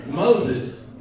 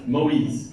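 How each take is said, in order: First: "Moses" said the English way, MOH-zes, stress on the front; English pronunciation. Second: "Moïse" said the French way, moh-EEZ, stress on the end; French pronunciation. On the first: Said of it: "And, and in English, what is it?". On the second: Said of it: "So the name Moïse". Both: Shown as a demonstration.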